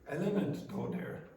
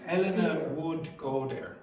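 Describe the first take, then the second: First: 'Would' is reduced to a 'd' sound. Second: 'Would' is pronounced as a full word. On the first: "so now read that" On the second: "if you said would"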